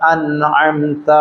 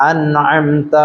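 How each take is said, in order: Both takes have the same delivery.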